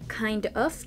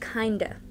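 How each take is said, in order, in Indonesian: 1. Kedua kata diucapkan penuh. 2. 'Of' direduksi menjadi 'a' yang pendek. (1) "Kalau kind of" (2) "kata of kalau dikontraksi menjadi a, jadi kinda"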